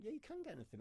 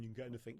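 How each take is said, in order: First: Mock-incredulous repeat, pitched much higher; sarcastic echo. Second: Said in the usual way. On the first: Shown as a demonstration. Repeating the chef's reply back, high and sarcastic. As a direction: scoff at the claim with a high sarcastic lilt.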